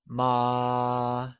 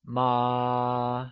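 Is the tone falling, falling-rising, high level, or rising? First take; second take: high level; high level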